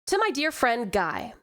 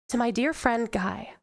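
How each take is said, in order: First: It is read in Monty's character voice. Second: It is read in the speaker's own voice.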